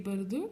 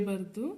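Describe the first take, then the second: The two takes are said the same way.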